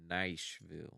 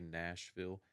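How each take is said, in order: First: The word is said in a country accent. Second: The word is said in a standard accent. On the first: "He would pronounce it Nashville. ... very, like, country" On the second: "he wouldn't say Nashville"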